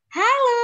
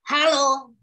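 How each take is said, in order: First: It is said in a happy way. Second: It is said in an angry way. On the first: "Tapi kita pakai ekspresi bahagia" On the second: "kita ekspresinya marah misalnya"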